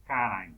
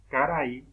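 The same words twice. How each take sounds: First: "caray" ending through the nose, almost "carang"; nasal vowel. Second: Said in the usual way. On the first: Shown as a demonstration. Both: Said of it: "la vocal suena por la nariz".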